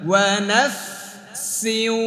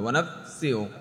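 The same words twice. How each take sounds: First: The f and s sounds are kept separate. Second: The f and s sounds are blended together. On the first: The speaker calls it right. "দুই জায়গা থেকে উচ্চারণ করতে হবে" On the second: The speaker calls it wrong. "ফা আর সিন একসাথে করে ফেলে"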